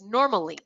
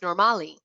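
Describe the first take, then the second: First: The stress falls on the usual syllable. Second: The stress falls on an unexpected syllable. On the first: This is the intended word. The speaker calls it right. "the intended word was normally" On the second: Listeners heard a different word. The speaker calls it wrong. "and it was pronounced normali"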